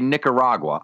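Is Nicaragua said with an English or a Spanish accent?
English. It is said with a plain English pronunciation. It acknowledges the Spanish without overdoing it. The speaker calls it right. "I'll say Nicaragua"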